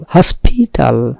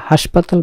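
First: Slow, careful হসপিটাল with an English "hos" and a clear "pi"; English pronunciation. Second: হাসপাতাল said the Bengali way, open "ha" and "pa"; plain Bengali হাসপাতাল, each syllable open; Bengali pronunciation. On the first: Teacher modelling the English হসপিটাল against Bengali হাসপাতাল. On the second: Teacher setting the Bengali হাসপাতাল against the English. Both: Shown as a demonstration. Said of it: "ইংরেজির উচ্চারণটা হচ্ছে হসপিটাল".

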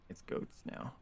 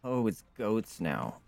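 First: Voiceless, much softer repeat; whispered aside. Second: Said in the usual way. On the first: Real, not acted. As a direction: whisper it to yourself. Repeats it under the breath.

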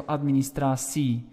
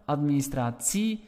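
First: "administratie" with a -sie ending; Flemish pronunciation. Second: "administratie" with a crisp -tsie ending; Dutch pronunciation. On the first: Teacher contrasts Belgian administratie. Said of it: "in Belgium". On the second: Teacher contrasts Netherlands administratie. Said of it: "in the Netherlands". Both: Shown as a demonstration.

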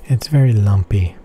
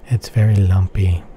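The two takes are said the same way.

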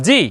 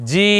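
First: জি kept brief; a short, single-beat জি; short vowel. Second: জি with a long-held vowel; sustained জি; stretched vowel. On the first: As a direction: say জি without stretching. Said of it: "এখানে সংক্ষেপ হবে". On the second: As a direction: draw out the i in জি. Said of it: "অর্থাৎ টান হবে না". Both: Shown as a demonstration.

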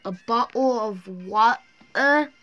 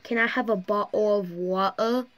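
First: Drawn-out mock British "A bottle of water?"; a slowed, hammed-up British "water"; slow British accent. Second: Light mock British accent, "bottle of water" with dropped t's; a cheeky British accent imitation; playful British "bottle of water". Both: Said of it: "British people be like".

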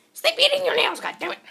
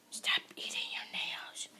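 First: High, loud squawked telling-off; mock scolding yell. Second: Drawn-out hushed warning; slow whispered scolding. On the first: Vlogger scolding her for eating her nails, mock yell. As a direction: yell it in exasperated, squeaky outrage. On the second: Pretend. Vlogger telling her to stop eating nails, whispered. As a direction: whisper it slowly, word by word.

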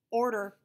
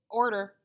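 First: Higher, louder tinny speaker voice. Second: Louder, higher squawk of a speaker box; intercom voice. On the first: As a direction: squawk it through a cheap intercom. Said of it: "said the tinny voice". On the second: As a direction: bark it like a tinny intercom. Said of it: "The intercom squeaked and said". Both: A narrator's reading.

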